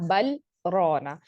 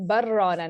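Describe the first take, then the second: First: The L is pronounced clearly before the R. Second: The L is merged completely into the R. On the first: The speaker calls it right. "सख्त की वजह से यहाँ पे लाम का इजहार हो रहा होता है" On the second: The speaker calls it wrong. "हम यहाँ पर बर रौना नहीं पढ़ते"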